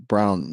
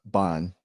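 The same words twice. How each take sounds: First: Slow "brown" with a long, held R and a drawn-out vowel; lingering brown. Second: Soft, clipped "bon" with no R sound at all; wrong bon. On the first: Tutor showing the learner a slow, lingering "brown". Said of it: "try letting that R and brown linger a bit more". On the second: Tutor imitating the learner's R-less "bon". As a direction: drop the R and say "bon" short. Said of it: "More like brown, not bon". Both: Shown as a demonstration.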